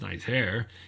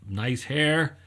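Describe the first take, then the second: First: It is said sarcastically, mocking the hair. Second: It is said sincerely, as a compliment.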